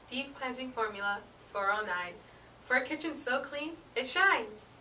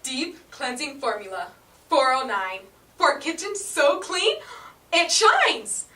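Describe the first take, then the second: First: It is said flat, with little vocal energy. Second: It is said with big vocal energy.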